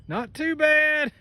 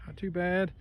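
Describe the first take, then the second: First: High, slow, drawn-out "Not too bad"; sing-song drawl. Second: Said in the usual way. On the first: Shown as a demonstration. Same words said twice.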